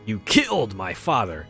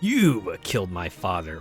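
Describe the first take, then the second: First: The stress falls on the word killed. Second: The stress falls on the word you.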